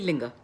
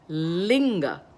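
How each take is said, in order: First: The opening L sound is cut short. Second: The opening L sound is held long. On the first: The speaker calls it wrong. "cut it short" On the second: The speaker calls it right. "let it linger in my mouth for a little while"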